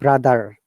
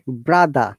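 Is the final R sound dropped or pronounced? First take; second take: pronounced; dropped. First: The final R sound is pronounced. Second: The final R sound is dropped. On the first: The speaker calls it wrong. "not brother" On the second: The speaker calls it right. "you don't need to use letter R. You have to just avoid it, like brother"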